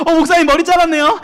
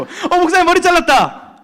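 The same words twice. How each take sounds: First: High, bright rising "잘랐네요"; 학생이 목사님 머리를 알아보며 높게 올려 말하는 인사; mock student greeting. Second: High, slow blunt "잘랐다" falling; 두 번째 친구가 높고 느리게 무심히 던지는 말; second student. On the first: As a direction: imitate a student noticing the haircut. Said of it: "한 열 명한테 그랬어요". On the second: Retold or imitated. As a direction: flatly state the haircut as a kid. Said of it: "두 번째 친구".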